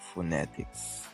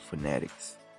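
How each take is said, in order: First: It is read with French sounds, clear T. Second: It is read the English way, T like D. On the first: This is how the spelling would be read in French. The speaker calls it wrong. "in French right here, it would sound like phonetics" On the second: This is how it is really said in English. The speaker calls it right. "in English it sounds like phonetics. See, the T sounds like a D"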